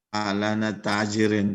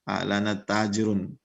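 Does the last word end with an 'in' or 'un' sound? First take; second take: in; un. First: The last word ends with an 'in' sound. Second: The last word ends with an 'un' sound. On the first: The speaker calls it wrong. "tidak pernah ya" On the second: The speaker calls it right. "ini tajirun dibaca"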